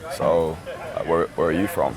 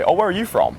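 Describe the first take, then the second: First: It is asked slowly in a seductive tone. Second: It is asked in a casual, friendly tone.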